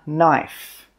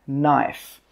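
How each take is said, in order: Both takes have the same delivery.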